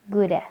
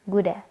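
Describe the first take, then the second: Both takes have the same delivery.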